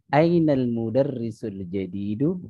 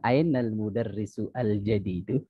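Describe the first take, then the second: First: The article is joined onto the previous word. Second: The article is pronounced separately after a full vowel. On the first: "Tapi dibacanya" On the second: "Sekarang ainal mudarrisu al jadidu gitu ya"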